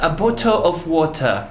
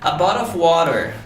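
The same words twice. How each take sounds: First: It is said in a British accent. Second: It is said in an American accent.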